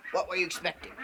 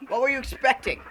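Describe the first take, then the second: First: Said in the usual way. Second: Loud, high mock outrage; mock indignation. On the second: Host scolding viewers over nothing there, mock indignant. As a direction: raise your voice at the gullible viewers.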